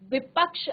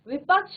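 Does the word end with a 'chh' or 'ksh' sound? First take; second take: ksh; chh. First: It ends with a 'ksh' sound. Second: It ends with a 'chh' sound. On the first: The speaker calls it right. "विपक्ष आपका सही शब्द है" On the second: The speaker calls it wrong. "विपक्ष नहीं होता"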